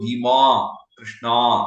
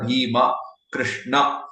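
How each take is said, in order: First: The last syllable is dragged out longer. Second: The last syllable is kept short. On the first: The speaker calls it wrong. "in the south, what they do sometimes ... which also is not correct" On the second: The speaker calls it right. "the right pronunciation is"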